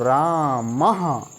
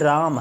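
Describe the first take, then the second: First: The word ends with an added breathy ha echo. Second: The word ends plainly on the m sound. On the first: "इसमें विसर्ग लग गया तो इसको पढ़ेंगे हम लोग" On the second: "जैसे ये राम है"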